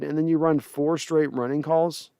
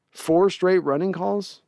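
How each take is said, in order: First: Said in the usual way. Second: Slow, disbelieving question rising on straight; incredulous repeat. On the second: Real, not acted. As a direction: drag it out, as if you can't believe the call. Repeats the play call disbelieving.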